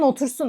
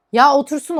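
First: Said in the usual way. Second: "Ya otursun" pushed out louder on "ya"; pleading that cashiers be allowed to sit, emphatic; emphatic plea. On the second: Real, not acted. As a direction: hit "Ya" hard, rising on "otursun".

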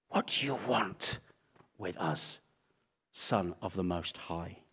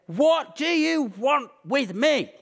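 First: Low, soft, held-back menace; subdued retold yell. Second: High, slow, drawn-out mock yell; retold shout. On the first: Demons confronting Jesus on the island, hushed and held back. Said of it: "ready to scream and yell". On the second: Possessed man confronting Jesus, mock shouting. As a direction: wail it out, imitating a raging man. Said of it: "shouts at Jesus and he says".

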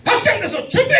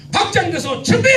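First: High, loud call to start; louder cue call. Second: High, loud call to start; loud cue call. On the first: Pastor pushes the congregation to be louder, loud cue. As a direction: push it through the ceiling. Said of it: "천정을 뚫고 올라가야 돼". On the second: Pastor calls the congregation to start, loud cue. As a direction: bark the cue like a drill leader. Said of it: "지금 연습을 하는 거예요". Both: Shown as a demonstration.

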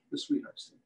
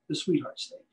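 First: Whispered. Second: Said in the usual way. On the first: Acted. Butcher to his class, repeating today's feature in a whisper. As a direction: repeat the name in a hushed whisper.

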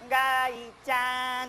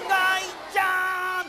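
First: Slow, gentle call of the name; tender drawn-out ガイちゃん. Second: Slow, loud, high call of the name; drawn-out shout of ガイちゃん. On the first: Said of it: "もっと優しい声で". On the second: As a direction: call out so loud it blows the roof off. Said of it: "バーンと飛んじゃうぐらい大きい声で". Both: Shown as a demonstration.

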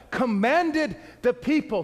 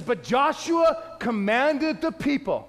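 First: Slow, with commanded pressed hard; stress on commanded. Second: Slow, weighty reading with Joshua leaned on; stress on Joshua. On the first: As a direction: hammer the word commanded. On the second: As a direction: read it slowly and lean into Joshua. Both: Shown as a demonstration. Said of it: "underline, highlight".

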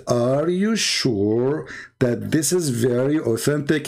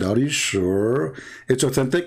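First: Deliberate, slowed-down cross-examining tone; slow pointed question. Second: Said in the usual way. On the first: Retold or imitated. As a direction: draw each word out slowly. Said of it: "So I said". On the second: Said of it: "I said".

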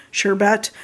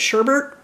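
First: "sherbet" as SHUR-bet, no second R; others' pronunciation. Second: "sherbet" as SHUR-burt, with an extra R; own pronunciation. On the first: Vlogger showing how many people say it, "sherbet" as SHUR-bet. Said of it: "a lot of people pronounce it as". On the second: Vlogger showing their own way, "sherbet" as SHUR-burt. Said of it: "I pronounce it as sherbet". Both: Shown as a demonstration.

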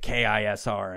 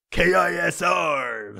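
First: Said in the usual way. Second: Slow, loud, higher station ident; radio DJ voice. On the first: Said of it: "we're gonna take K I S R". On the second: Retold or imitated. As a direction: belt out the call letters like a DJ. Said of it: "this weird fucking voice that they all do".

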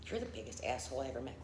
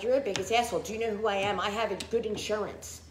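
First: Quiet retold insult. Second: Indignant outburst. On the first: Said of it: "and said". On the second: Retold or imitated. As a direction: throw it back at the doctor, offended. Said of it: "I was like".

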